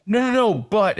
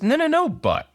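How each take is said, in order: First: High, quick protesting interjection; hurried protest. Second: Very high mocking echo; mimicking the protest. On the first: Retold or imitated. Client objecting to doctor in therapy, protesting. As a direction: cut in with a higher-pitched objection. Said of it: "And I'm like". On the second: Therapist throwing client's excuse back, mimicking. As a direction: parrot the objection back in a much higher voice. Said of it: "and she goes, "No, no, no, but".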